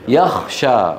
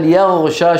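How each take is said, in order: First: The middle consonant is a voiceless kh sound. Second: The middle consonant is a voiced gh sound. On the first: The speaker calls it wrong. "إبدالها خاء" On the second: The speaker calls it right. "بدل يغشى"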